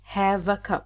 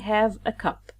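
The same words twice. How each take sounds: First: The v sound runs smoothly into the next vowel. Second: Each word is said separately without linking. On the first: The speaker calls it right. "Simply we connect V to A. We pronounce it have a" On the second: The speaker calls it wrong. "We don't say have a cup"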